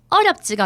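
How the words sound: It has Daegu dialect intonation. The speaker calls it wrong. "어렵지가 아니고"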